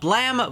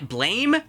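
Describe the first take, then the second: First: The word rhymes with 'ham'. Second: The word rhymes with 'name'. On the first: The speaker calls it right. "apparently you pronounce it Blam" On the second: The speaker calls it wrong. "Bla Blame?"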